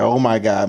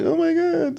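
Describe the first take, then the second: First: Said in the usual way. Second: A light, higher-pitched dramatic gasp; mock dramatic girl. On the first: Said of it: "it's like a". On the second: Mocking how girls react when hurt, light dramatic voice. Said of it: "When girls do it, it's like".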